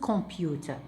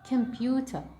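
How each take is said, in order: First: The first vowel is full and strong. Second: The first vowel is short and light. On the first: The speaker calls it wrong. "not computer" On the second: The speaker calls it right. "It sounds like K. Computer, not computer"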